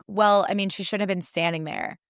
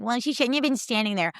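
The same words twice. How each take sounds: First: Dismissive host. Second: Higher, snotty mimic of the host; mocking the host. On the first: Retold or imitated. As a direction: shrug it off like it's not your problem. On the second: Speaker mocking the host's excuse, snotty and higher. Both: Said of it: "the audacity of that host".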